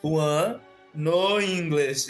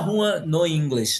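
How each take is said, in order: First: There is a clear pause after the name. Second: It runs on without a pause after the name. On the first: The name and the remark are kept separate. The speaker calls it right. "Eu aprendi que eu tinha que dar uma pausa" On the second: The phrase sounds like part of the name. The speaker calls it wrong. "eu falava assim"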